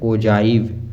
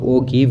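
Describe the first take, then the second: First: The g is soft, like a j. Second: The g is hard, as in give. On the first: The speaker calls it right. "Pronounced as ओजाइव" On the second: The speaker calls it wrong. "ओ गिव नहीं है"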